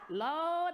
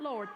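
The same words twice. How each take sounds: First: The R is dropped, so it sounds like lawd. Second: The word is said with a clear R sound. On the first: "like L A W D" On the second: "not Lord"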